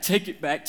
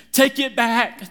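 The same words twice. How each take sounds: First: Said in the usual way. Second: High, loud frantic shout of take it back. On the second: Retold or imitated. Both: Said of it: "And I'm going".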